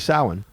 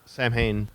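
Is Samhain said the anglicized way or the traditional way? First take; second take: traditional; anglicized. First: It is said the traditional, native way. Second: It is said the anglicized, letter-by-letter way. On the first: The speaker calls it right. "It's really Samhain. ... that's how you say it" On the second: The speaker calls it wrong. "it's all a mispronunciation"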